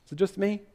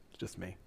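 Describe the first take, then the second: First: Said in the usual way. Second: Much softer and lower, drop it to a murmur; resigned aside. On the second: Real, not acted. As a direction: answer your own question under your breath.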